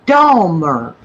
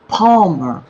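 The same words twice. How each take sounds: First: Dahmer said deliberately with a clear D; Dahmer, opening on "DAH"; careful pronunciation. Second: Palmer with a P replacing the D; Palmer, "PAHL-mer", set apart by itself; demonstrated mishearing. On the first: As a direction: spell it out by ear: DAH-mer. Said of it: "D A". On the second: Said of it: "sounded like you were saying". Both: Shown as a demonstration.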